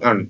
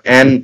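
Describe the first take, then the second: First: The word has a short reduced vowel. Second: The word has a full open vowel. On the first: "শুধু আন" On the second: "অ্যান উচ্চারণ না করে"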